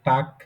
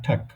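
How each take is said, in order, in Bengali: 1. প্রথম t ধ্বনিটি সাধারণ ও আনঅ্যাসপিরেটেড। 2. প্রথম t ধ্বনিটি সাধারণ ও অ্যাসপিরেটেডের মাঝামাঝি। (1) "এটা টাক এরকমও না" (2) "ট ঠয়ের মাঝামাঝি"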